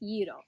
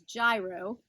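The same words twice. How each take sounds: First: It is said the Greek way. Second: It is said the common American way. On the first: The speaker calls it right. "but it's pronounced gyro" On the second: The speaker calls it wrong. "commonly known as gyro, but that's not really how you say it"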